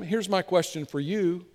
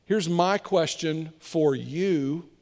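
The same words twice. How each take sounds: First: Said in the usual way. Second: Here's drawn out slowly, rising; slow each word down for weight; slow, deliberate. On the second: Shown as a demonstration. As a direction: repeat it slower to make it land.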